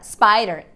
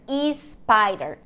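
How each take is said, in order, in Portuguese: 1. Começa diretamente com o som de s. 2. Uma vogal extra vem antes do som de s. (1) "A palavra spider"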